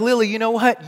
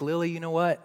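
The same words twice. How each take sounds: First: Raised, higher mock-dad outburst; mock exasperation. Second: Gentle and much quieter than the outburst; tender, tearful dad. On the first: Dad jokingly answering his upset daughter, mock exasperated. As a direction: pretend to fire back loudly at your child. Joke reply, taken back afterwards. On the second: Retold or imitated. Dad holding his crying daughter close, tender. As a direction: softly open up to your child. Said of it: "now I'm crying".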